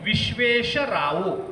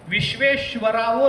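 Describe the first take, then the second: First: The syllable before 'ravo' is plain 'sha'. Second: The syllable before 'ravo' is 'shva'. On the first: The speaker calls it right. "श्व नाही श" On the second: The speaker calls it wrong. "विश्वेश्वरावो नाही"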